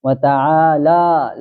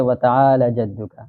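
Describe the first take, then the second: First: وتعالی said slowly with the لام stretched long; long lam, correct. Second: وتعالی said with a short لام; short lam, wrong. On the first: Shown as a demonstration. Teacher shows the correct long لام in وتعالی. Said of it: "لام کے اوپر کھڑا زبر ہے تو اس کو لمبا کرے". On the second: Retold or imitated. Teacher imitates people reading the لام short. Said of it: "کہتے ہیں".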